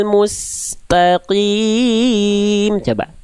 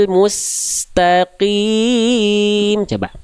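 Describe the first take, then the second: No difference in how they are said.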